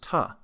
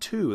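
First: The vowel is reduced to a schwa. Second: The vowel is a full oo sound. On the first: "that was ta" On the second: "that wasn't to"

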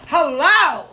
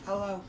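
First: It is said loudly, with more pep. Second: It is said flatly, with little energy.

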